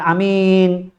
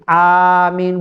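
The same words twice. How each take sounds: First: The first vowel is cut short. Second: The first vowel is held long. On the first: The speaker calls it wrong. "bukan amin. Bukan hamzahnya dibaca pendek" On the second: The speaker calls it right. "jadi amin"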